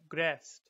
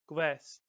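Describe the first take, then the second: First: The word is said with an R sound. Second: The word is said without an R sound.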